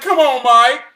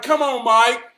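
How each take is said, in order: First: Loud, rising come on in disbelief; he can't be serious, push it harder; louder exasperated. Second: Exasperated. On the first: Teen pleading with mechanic over pepper, louder and incredulous. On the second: Disbelief at pepper advice. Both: Retold or imitated.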